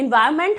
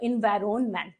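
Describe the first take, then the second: First: The n before 'ment' is silent. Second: The n before 'ment' is pronounced. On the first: This is how it is normally spoken. "इन्वायरमेंट हम लोग बोलते हैं, इसमें एन नहीं pronounce करते हैं" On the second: This helps remember the spelling. "लेकिन spelling जब हम याद रखेंगे तो इन्वायरमेंट"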